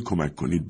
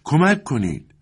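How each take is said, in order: First: Said in the usual way. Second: High-pitched call for help, moderately loud; cry for help. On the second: A narrator's reading. Voice rises from the yard once more, calling for help. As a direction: call out for rescue with pitch well up. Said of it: "دوباره این صدا بلند شد".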